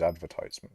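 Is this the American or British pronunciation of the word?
American. It is said with the American pronunciation. This is the form the speaker prefers. The speaker calls it right. "the Americans do it better"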